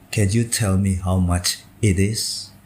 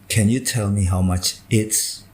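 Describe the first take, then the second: First: The final 'it is' is said in full. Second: The final 'it is' is contracted to 'it's'. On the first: The speaker calls it right. "Harus utuh" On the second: The speaker calls it wrong. "Itu tidak boleh"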